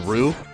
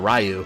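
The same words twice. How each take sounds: First: The name is said in a Japanese-like way. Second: The name is said as English spelling suggests. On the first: This is how the name is really pronounced. The speaker calls it right. "the correct pronunciation is closer to Ryu" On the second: The name was guessed from its spelling. The speaker calls it wrong. "You just saw it R Y U and you said Ryu"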